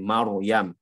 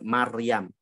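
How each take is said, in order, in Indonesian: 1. Huruf r dibaca tebal dan penuh. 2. Huruf r dibaca tipis dan ringan. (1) "maka dibaca tafkhim" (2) "Jangan dibaca"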